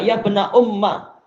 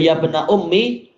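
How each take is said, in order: First: The last word ends with an 'a' vowel. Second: The last word ends with an 'i' vowel. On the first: "yaitu ada fathah di atas dengan ya yang dihapus" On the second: "ma'a kasril mim, disertai dengan mimnya di kasrah"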